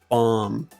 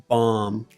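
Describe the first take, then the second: The two takes are said the same way.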